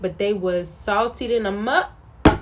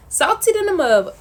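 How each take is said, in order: First: Said in the usual way. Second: "salty than a mug" punched higher and louder; emphatic. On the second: Real, not acted. Retelling ruined brownies, emphatic raised punchline. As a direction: hit "salty than a mug" hard and high.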